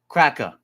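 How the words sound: The word is said lazily in a Boston accent. The speaker calls it wrong. "we usually say it like cracker. If you're from Boston, you say cracker"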